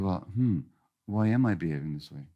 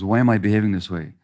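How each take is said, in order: First: It sounds curious and wondering. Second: It sounds accusing and blaming.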